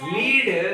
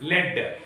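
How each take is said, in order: First: The vowel is long, like 'leed'. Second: The vowel is short, like 'led'. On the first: It means to guide or run an event. "లీడ్ అంటే ఒక కార్యక్రమాన్ని నడపడం" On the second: It means the metal. "లెడ్ అంటే సీసం"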